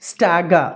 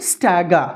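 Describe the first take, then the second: Both takes have the same delivery.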